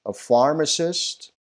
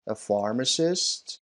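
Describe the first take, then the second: First: Pharmacist said slow, higher and a bit louder; teacher introduces pharmacist slowly, pitched up; model pronunciation. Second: Said in the usual way. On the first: Shown as a demonstration. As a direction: present "A pharmacist" slowly and brightly. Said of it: "teacher models new word". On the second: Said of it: "teacher repeats the word".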